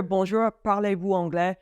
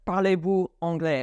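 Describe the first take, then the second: First: Said in the usual way. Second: Parlez-vous anglais asked curtly, with no greeting; abrupt French question. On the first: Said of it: "start with your". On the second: Shown as a demonstration. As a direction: blurt out the question. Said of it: "and not just".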